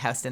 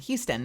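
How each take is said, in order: First: The name is said with the New York pronunciation. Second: The name is said without the New York pronunciation. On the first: The speaker calls it wrong. "not Houston. That's a New York thing" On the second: The speaker calls it right.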